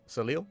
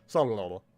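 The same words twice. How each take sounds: First: Soleil said as so-leel with a rising question; questioning pronunciation. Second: Soleil said lower as sah-luh-lo; old-country pronunciation. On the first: Gamer puzzling over the café name, Soleil as so-leel. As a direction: try out Soleil as so-leel, asking. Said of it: "That's how I say it". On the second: Gamer joking about old-country pronunciation of Soleil. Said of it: "That's how we say it from the old country". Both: Shown as a demonstration.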